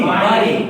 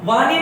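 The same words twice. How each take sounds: First: "वाणी" with a retroflex णी; correct pronunciation. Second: "वाणी" with a plain dental नी; higher "वाणी", said with न for ण; wrong pronunciation. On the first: Teacher correcting the common error, correct pronunciation. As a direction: curl the tongue back for ण in "वाणी". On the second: Teacher rejecting a common error, wrong pronunciation. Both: Shown as a demonstration. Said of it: "वाणी नहीं होती".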